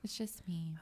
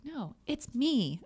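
First: It is said in a weepy, deflated voice. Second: It is said in a confident, upbeat voice.

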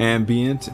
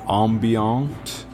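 First: The word is pronounced the plain English way. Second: The word is pronounced the French way.

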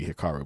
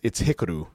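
First: The name is said in an American way. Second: The name is said in a Japanese-like way. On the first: "we Americanize it to be Hikaru" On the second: "I feel like it's Hikaru Shida"

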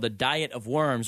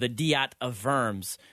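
First: The name is said with English pronunciation. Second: The name is said with German-like pronunciation.

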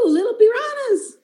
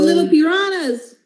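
First: It is said in a Spanish accent. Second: It is said in her ordinary accent.

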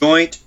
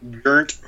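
First: The word is said in a general accent. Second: The word is said in a Brooklyn accent.

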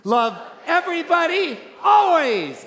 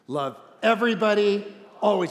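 First: It is said with strong, sassy attitude. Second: It is said in a plain, neutral way. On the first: "One more time with attitude" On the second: "Say it with me"

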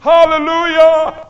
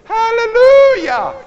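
First: It is said at a lower pitch. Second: It is said at a higher pitch.

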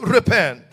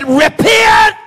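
First: It is said softly and mildly, without force. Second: It is cried out loudly and with intensity. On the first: It is a polite, half-hearted suggestion. The speaker calls it wrong. "John didn't whisper that. John didn't get up there and fix his little tie" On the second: It is an urgent, passionate demand. The speaker calls it right. "The Bible said that he cried. It's a word of intensity"

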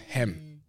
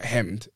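First: The word ends without a D sound. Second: The word ends with a D sound. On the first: The speaker calls it right. "it's hem" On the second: The speaker calls it wrong. "It's not hemmed"

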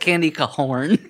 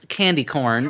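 First: Corn is stretched into two syllables, like horn. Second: Corn is said as one plain syllable.

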